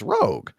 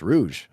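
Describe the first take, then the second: First: The name ends with a hard g sound. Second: The name ends with a soft zh sound. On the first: The speaker calls it wrong. "I've been saying it wrong since the nineties" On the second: The speaker calls it right. "Oh, it's Rouge"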